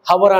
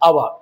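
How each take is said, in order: First: The word begins with an h sound. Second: The word begins directly with a vowel. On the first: The speaker calls it wrong. "మనం హవర్ అన అన- అనకూడదు" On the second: The speaker calls it right. "దాని sound ఎలా ఉంది చూడండి"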